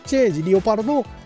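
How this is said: It ends with a long, drawn-out final syllable. A French speaker said it this way. "フランス人ですからね、パルドーンですからね"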